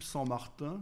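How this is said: The name is said with a French pronunciation. "je prononce à la française"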